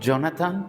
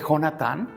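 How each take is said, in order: First: The name is said with English pronunciation. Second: The name is said with Spanish pronunciation.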